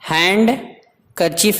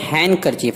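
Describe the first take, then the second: First: The d sound is pronounced. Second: The d sound is silent. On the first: The speaker calls it wrong. "नहीं पढ़ेंगे" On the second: The speaker calls it right. "डी खामोश रहता है"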